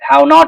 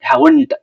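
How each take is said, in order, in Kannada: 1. ಇದನ್ನು ಎರಡು ಪೂರ್ಣ ಪದಗಳಾಗಿ ಹೇಳಲಾಗುತ್ತದೆ. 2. ಇದನ್ನು ಒಂದೇ ಸಂಕ್ಷಿಪ್ತ ಪದವಾಗಿ ಹೇಳಲಾಗುತ್ತದೆ. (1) "ಅಂತ ಹೇಳ್ಬಾರ್ದು" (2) "ಶಾರ್ಟ್ ಆಗೇ ನೀವು ಪ್ರೊನೌನ್ಸ್ ಮಾಡ್ಬೇಕಂದ್ರೆ"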